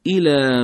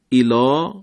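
First: الی with a thin, light lam, slowly. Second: الا said wrongly with a thick, heavy lam; wrong Quran reading with heavy lam. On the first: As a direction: say الی with the lam kept thin, leaning to fatha. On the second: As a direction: give الا a full, dark lam as the mistake. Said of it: "غلطه". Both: Shown as a demonstration.

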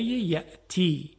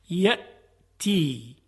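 First: Said in the usual way. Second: یأتی said very slowly, with a clear glottal stop on the hamza; hamza stop shown slowly. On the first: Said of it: "عنایت بفرمایید. مثلاً کلمهٔ یأتی". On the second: Shown as a demonstration. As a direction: stretch یأتی out and close the throat at the hamza. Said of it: "مثلاً کلمهٔ یأتی".

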